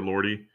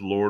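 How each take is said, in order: First: The name is said as two syllables. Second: The name is said as one syllable. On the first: "I don't know if it's Lord or Lordy" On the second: "I don't know if it's Lord or Lordy"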